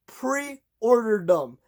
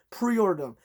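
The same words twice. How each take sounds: First: "pre-order them" stretched very slow, each syllable leaned on; slow, insistent "pre-order them"; drawn-out emphasis. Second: Said in the usual way. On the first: Acted. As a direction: drag out "pre-order them" to drive the advice home. Urging viewers to pre-order.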